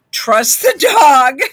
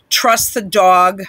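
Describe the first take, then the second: First: "Trust the dog" slow, louder and higher, with laughter; emphatic repeat. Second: "Trust the dog" said slowly and evenly; slow emphasis. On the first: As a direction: hammer home "Trust the dog", pitched up and laughing. Repeats advice louder, breaking into laughter. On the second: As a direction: give each word of "Trust the dog" deliberate weight. Reads quoted advice, first take. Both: Retold or imitated.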